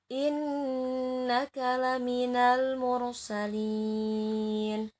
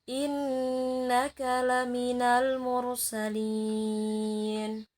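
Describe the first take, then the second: The two takes are said the same way.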